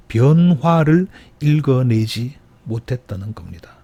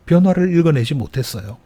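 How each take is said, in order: First: Slow, weighty delivery with 변화를 stressed; deliberate sermon emphasis. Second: Raised pitch on 변화를 in the repeat; urgent plain restatement; higher restatement. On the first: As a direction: lay down the point slowly. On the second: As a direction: lift the voice to drive it home. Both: Shown as a demonstration. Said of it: "preacher repeats key point".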